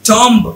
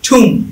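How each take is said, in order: First: A b sound is heard at the end. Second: The word ends in m with no b. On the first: The speaker calls it wrong. "টম্ব নাকি টম" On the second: The speaker calls it right. "এটা আসল উচ্চারণ হচ্ছে ঠুম"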